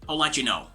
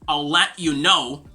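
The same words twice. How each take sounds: First: The words run together smoothly and fluidly. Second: The words are said separately, not smoothly linked. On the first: The speaker calls it right. "the sound is a little bit smoother and fluid" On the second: The speaker calls it wrong. "instead of saying"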